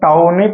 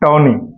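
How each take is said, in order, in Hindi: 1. पहला स्वर 'cow' में 'ow' जैसा सुनाई देता है। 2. पहला स्वर 'law' में 'aw' जैसा सुनाई देता है। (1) "अगर आपको दिक्कत होता है तो आप टाउनी पढ़ लो" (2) "लेकिन इसको करेक्ट प्रोनाउंसिएशन है टॉनी"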